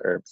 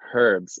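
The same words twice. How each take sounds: First: The word begins with a vowel, no h sound. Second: The word begins with an audible h sound. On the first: The speaker calls it wrong. "not herbs. That's ridiculous" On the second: The speaker calls it right. "as the English would say"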